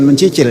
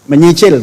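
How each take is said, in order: First: The second syllable begins with a 'ch' sound. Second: The second syllable begins with an 'ny' sound. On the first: The speaker calls it wrong. "kalau salah ucap nggak enak" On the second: The speaker calls it right. "Menyicil, bukan mencicil ya"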